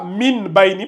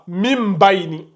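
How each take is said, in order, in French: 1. Le premier mot se termine par un son n. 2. Le premier mot se termine par un son m. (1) "vous ne lisez pas ça Min Baini parce que le mime est là" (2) "ça se prononce comme ça"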